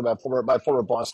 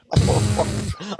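First: Said in the usual way. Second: Repeating it through laughter; giggly high retake; laughing. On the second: Retold or imitated. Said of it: "I'm repeating Jane in my ear".

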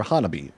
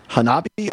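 First: Hanabi as HAH-nuh-bee; first-syllable stress. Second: Hanabi as huh-NAH-bee; second-syllable stress. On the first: Host checking the other reading, Hanabi as HAH-nuh-bee. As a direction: put the beat on HAH in Hanabi. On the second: Host checking the name with co-host, Hanabi as huh-NAH-bee. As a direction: put the beat on NAH in Hanabi. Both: Shown as a demonstration.

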